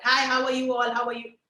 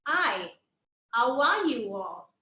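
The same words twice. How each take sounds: First: Greeting rattled off without gaps; casual, continuous hello to everyone; run-together greeting. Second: Greeting drawn out syllable by syllable; slow, deliberate hello with a gap after "Hi"; slow, separated greeting. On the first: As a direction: run the words straight through. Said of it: "I didn't do this with the puppet". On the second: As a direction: stretch each word for a puppet's mouth. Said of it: "I did". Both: Shown as a demonstration.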